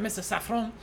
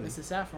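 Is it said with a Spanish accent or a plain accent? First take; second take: Spanish; plain. First: It is said with a Spanish accent. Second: It is said in a plain accent.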